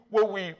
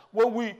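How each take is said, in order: Both takes have the same delivery.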